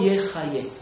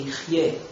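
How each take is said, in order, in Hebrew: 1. הפועל נקרא yechayeh. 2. הפועל נקרא yichyeh. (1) "צדיק צריך להחיות" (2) "לא"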